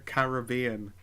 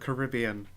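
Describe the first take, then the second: First: It uses the local Caribbean pronunciation of the word. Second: It uses the American pronunciation of the word. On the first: The speaker calls it right. "As the people who live in the Caribbean pronounce it" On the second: The speaker calls it wrong. "We've been around Americans too much. You nearly said Caribbean incorrectly"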